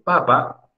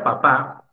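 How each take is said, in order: First: The stress is on the first syllable. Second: The stress is on the last syllable. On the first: It means potato. "más fuerte la sílaba penúltima" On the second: It means father. "La última sílaba la estás pronunciando más fuerte"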